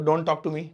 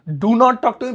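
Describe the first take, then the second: First: It is said in a mild, polite tone. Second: It is said in a firm, stern tone.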